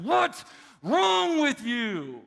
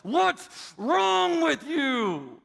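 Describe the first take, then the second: First: Slow, high, loud angry shout. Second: Slow, high, loud angry yell. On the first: Father shouts at his daughter, retold, angry. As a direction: bark it right in her face. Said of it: "and I said". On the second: Daughter yells in her sister's face, angry. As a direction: snap it at your sister, slowed and loud. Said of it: "and she yelled". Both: Retold or imitated.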